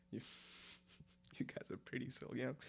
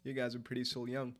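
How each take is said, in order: First: Laughing whisper; breathy giggling whisper. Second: Said in the usual way. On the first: Real, not acted. Whispered repeat to chat.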